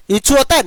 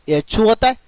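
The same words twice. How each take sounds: First: इच्छु with a short i at the start; इच्छु, short i first, like a teacher correcting; correct pronunciation. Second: एच्छु with an e sound at the start, slowed; wrong pronunciation. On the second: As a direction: show the mistake: एच्छु starting with e. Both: Shown as a demonstration. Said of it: "न कि guys एच्छु होता है".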